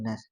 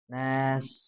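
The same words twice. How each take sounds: First: The s is quick, with little hiss. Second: The s is drawn out, with a clear hiss. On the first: The speaker calls it wrong. "desisan hilang biasanya karena terlalu cepat membacanya" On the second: The speaker calls it right. "harusnya nas"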